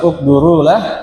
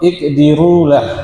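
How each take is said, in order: First: The vowel after the d is u. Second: The vowel after the d is i. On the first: "Boleh di dhammah" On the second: "boleh di kasrah pada huruf dal"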